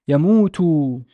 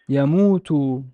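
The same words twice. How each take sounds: Both takes have the same delivery.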